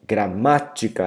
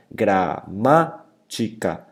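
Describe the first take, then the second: First: Said in the usual way. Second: Gramática very slowly, syllable by syllable, MA stressed; split into syllables. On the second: Shown as a demonstration. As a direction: break up gramática, punching MA. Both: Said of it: "se eu dividir silabicamente a palavra gramática".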